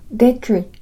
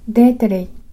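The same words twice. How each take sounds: First: The r is made with a curled tongue tip. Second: The r is a tap after an inserted vowel sound. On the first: "舌の先を丸めて上顎の歯茎に近づける音を使うと" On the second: "干渉音と弾き音を使うと"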